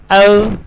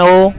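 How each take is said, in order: First: First O glides as "oh-oo"; British pronunciation. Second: Final O as pure "oh"; Pakistani pronunciation. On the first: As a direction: say O as a diphthong. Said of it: "by pronouncing it as". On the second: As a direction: say O with no glide. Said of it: "rather than O". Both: Shown as a demonstration.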